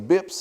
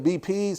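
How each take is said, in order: First: It is said as one short word. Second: It is spelled out as separate letters. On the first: "Some people say bips" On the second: "some say B Ps"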